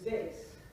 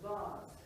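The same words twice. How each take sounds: First: The word has the American pronunciation. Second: The word has the British pronunciation. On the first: "in American English, the pronunciation of the thing that you put flowers in is vase" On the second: "the British pronunciation is vase"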